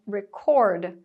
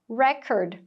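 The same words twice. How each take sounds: First: The stress is on the second syllable. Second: The stress is on the first syllable. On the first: It is a verb. "Para os verbos, a sílaba tônica vai ser a segunda" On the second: It is a noun. "os substantivos... vão ter a sílaba tônica marcada ali na primeira"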